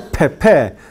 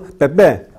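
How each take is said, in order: First: The p is released with a puff of air. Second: The p is released without a puff of air. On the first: The speaker calls it wrong. "No se dice Pepe" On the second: The speaker calls it right. "sino Pepe ... No se mueve"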